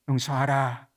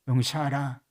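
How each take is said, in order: The two takes are said the same way.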